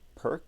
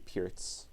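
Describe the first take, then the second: First: The word ends with a k sound. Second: The word ends with a ts sound. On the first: The speaker calls it wrong. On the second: The speaker calls it right.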